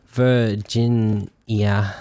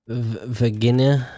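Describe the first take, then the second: First: "Virginia" said very slowly as "ver-JIN-ee-uh"; deliberate slow corrected Virginia; careful slow pronunciation. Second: Virginia said as "vuh-GIN-uh" with a hard g; stumbling hard-g Virginia; fumbled pronunciation. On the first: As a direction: spell out "Virginia" syllable by syllable. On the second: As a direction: trip over "Virginia", hard g. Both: Real, not acted.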